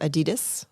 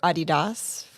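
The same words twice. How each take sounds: First: It is said the American way. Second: It is said the European way.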